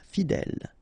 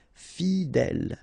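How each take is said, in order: First: Said in the usual way. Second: Slow "fidèle", fi-dèle; drawn out. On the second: Shown as a demonstration. French teacher modelling for learners, "fidèle" slow and drawn out. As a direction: stretch both syllables of "fidèle".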